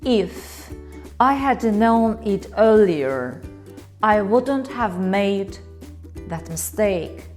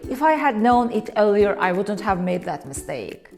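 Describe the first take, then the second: First: The sentence is spoken slowly and heavily. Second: The sentence is spoken quickly and casually. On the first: The speaker deeply regrets it. "Sounds serious, right? Like I really regret it" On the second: It is a casual everyday remark. "This is how native speakers often say it in real conversations"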